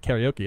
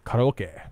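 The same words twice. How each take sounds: First: It is said with an English pronunciation. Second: It is said with a Japanese pronunciation. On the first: The speaker calls it wrong. "karaoke isn't karaoke" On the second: The speaker calls it right. "it's karaoke"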